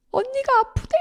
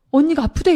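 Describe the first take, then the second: First: Much higher, choked mimic of a sobbing man saying "언니가 아프대"; retelling a brother's sobbing words in a wavering high voice; imitating crying brother. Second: Mock sobbing brother. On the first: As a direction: squeeze out "언니가" like a brother in tears. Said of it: "오빠가 펑펑 우는 거예요". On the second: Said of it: "숨을 못 쉴 정도로 우는 거예요".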